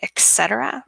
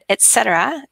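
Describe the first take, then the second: First: The first syllable sounds like 'eks'. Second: The first syllable sounds like 'et'. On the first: This is how people commonly say it. "we say etc. very often, like an X sound" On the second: This is the standard form. "is the, I suppose, correct way of saying it"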